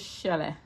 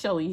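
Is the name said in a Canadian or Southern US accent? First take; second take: Southern US; Canadian. First: It is said in a Southern US drawl. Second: It is said in a Canadian accent.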